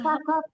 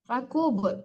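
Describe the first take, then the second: First: The last syllable has an a vowel. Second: The last syllable has a u vowel. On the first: The speaker calls it wrong. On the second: The speaker calls it right.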